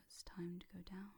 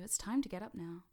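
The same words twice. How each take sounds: First: Settling, lulling hypnotic tone; going-down voice. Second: Brighter, lifted call to get up; wake-up voice. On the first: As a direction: ease them down into trance. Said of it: "versus the voice that tells you". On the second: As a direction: rouse them from trance. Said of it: "That voice that tells you". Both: Shown as a demonstration.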